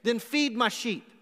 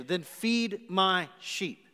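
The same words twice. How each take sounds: First: Firm mandate. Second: Slow command. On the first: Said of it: "I needed to give you a mandate". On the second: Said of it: "A sheepish answer". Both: Retold or imitated.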